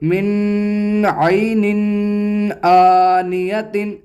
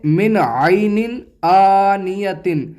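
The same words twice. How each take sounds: First: The n sound is nasalized and prolonged. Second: The n sound is clear without nasalization. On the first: The speaker calls it wrong. "ऐसे नहीं पढ़ेंगे" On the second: The speaker calls it right. "बल्कि इसको इस तरह पढ़ेंगे"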